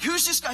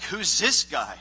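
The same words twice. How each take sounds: First: High-pitched mock outrage; hammed-up incredulous anger, pitch leaping up; getting mad. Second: Cocky challenge, punched louder; light cocky swagger. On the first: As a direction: imitate an indignant young challenger. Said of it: "he starts getting mad". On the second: Retold or imitated. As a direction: imitate a cocky young challenger. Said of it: "a little cocky".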